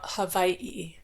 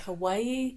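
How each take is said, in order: First: The middle consonant sounds like a v. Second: The middle consonant is a plain w sound. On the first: This is how people say it now. "W's are often like pronounced like a V" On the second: This is the older way people said it. "People would just say Hawaii"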